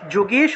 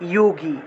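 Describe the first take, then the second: First: The word begins with a 'ju' sound. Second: The word begins with a 'yo' sound. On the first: This is the Bengali pronunciation. "বাংলায়" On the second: This is the Sanskrit pronunciation. "সংস্কৃতে"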